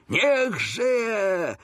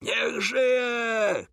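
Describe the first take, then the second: First: High, long, fuller-voiced cheer; shouted cheer. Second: High, drawn-out, held-back cheer; crowd cheer. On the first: Coretti cheering the king with others, high shout. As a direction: shout it high along with the crowd. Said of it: "krzyknął z innymi Coretti". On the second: Crowd around the royal carriage, high mock cheer. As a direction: imitate a crowd's shout without real volume. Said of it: "krzyczano dokoła". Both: A narrator's reading.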